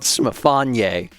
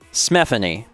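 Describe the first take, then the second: First: The name is said unlike Stephanie. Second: The name is said to sound like Stephanie. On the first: "I like Smifanye" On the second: "it's pronounced like Stephanie"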